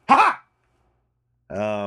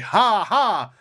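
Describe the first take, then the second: First: It is a punchy, sharp laugh. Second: It is a soft, plain laugh.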